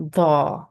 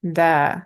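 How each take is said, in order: First: "da" with a thick D and darkened long vowel; heavy "da", tongue back raised; heavy D sound. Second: "da" with a thin, light D and long open vowel; thin D sound. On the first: Teacher contrasts letters with fatha and alif, heavy D. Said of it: "the heavy D sound". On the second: Teacher contrasts letters with fatha and alif, thin D. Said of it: "thin sounding D sound". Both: Shown as a demonstration.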